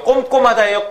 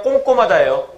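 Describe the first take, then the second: First: "꼼꼼하다예요" higher, with m in the first 꼼; higher, lips shut on the first 꼼 of "꼼꼼하다예요"; standard pronunciation. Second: "꼼꼼하다예요" said 꽁꼼, ng for the first m; colloquial pronunciation. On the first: Teacher quizzing class on their pronunciation, standard pronunciation. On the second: Teacher giving class the everyday option, colloquial pronunciation. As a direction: say kkong-kkom in "꼼꼼하다예요". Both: Shown as a demonstration. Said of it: "여러분들 발음 어떻게 해요?".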